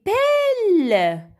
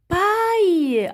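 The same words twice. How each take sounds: First: PELLE drawn out with an open E and held L; wrong reading. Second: PAILLE as "pa-y", high then falling; correct reading. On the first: Teacher tries a wrong reading on the children, drawn out. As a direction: misread it slowly as PELLE, rhyming with "elle". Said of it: "A I, c'est déjà le son A". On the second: Teacher gives children the right sound, PAILLE ending in Y. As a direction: say PAILLE with a long gliding Y ending, no L. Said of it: "Oui, on a dit paille". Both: Shown as a demonstration.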